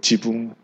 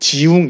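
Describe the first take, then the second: First: The second syllable starts with a b sound. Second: The second syllable starts with a w glide. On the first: The speaker calls it wrong. "이 W 발음을 잘 못할 때가 있대요" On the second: The speaker calls it right. "지웅 이래야 되는데"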